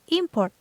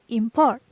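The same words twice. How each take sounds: First: The stress is on the first syllable. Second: The stress is on the second syllable. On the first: It is used as a noun or adjective. "So it's noun or adjective" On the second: It is used as a verb. "it's verb"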